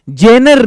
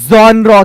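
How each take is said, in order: First: It sounds like 'jenner', with an 'eh' vowel. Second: It sounds like 'jonra', with an 'aw' vowel. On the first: The speaker calls it wrong. "जेनर नहीं कहते" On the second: The speaker calls it right. "जॉनरा कहते हैं"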